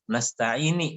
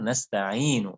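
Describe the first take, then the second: First: The word ends with an 'i' vowel. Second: The word ends with an 'u' vowel. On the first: The speaker calls it wrong. "banyak orang yang menyambungnya jadi keliru. Nasta'ini dia bilang" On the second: The speaker calls it right. "Padahal nasta'inu barisnya dhammah"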